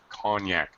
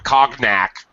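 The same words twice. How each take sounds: First: The middle has a soft ny sound. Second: The middle has a hard G sound. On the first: The speaker calls it right. "cognac has that extra Y sound" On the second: The speaker calls it wrong. "so it's not cognac"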